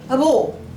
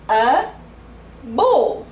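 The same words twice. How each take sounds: First: The two words run together like one word. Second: The two words are said separately and clearly.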